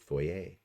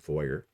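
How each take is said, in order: First: It is said the Canadian way. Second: It is said the American way.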